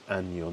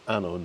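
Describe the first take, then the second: First: The middle consonant is a ny sound. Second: The middle consonant is a plain n sound. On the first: It means year. The speaker calls it right. "make sure you put the ny sound in the word año" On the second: It means something quite rude. The speaker calls it wrong. "don't say"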